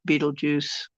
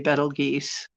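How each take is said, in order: First: The name sounds like 'beetle juice'. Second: The name begins 'bettle' and ends 'geuse'. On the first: This is the form others expected. "I was always corrected to Beetlejuice" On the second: This is the form it seems it would be pronounced. "if I tried to say Betelgeuse"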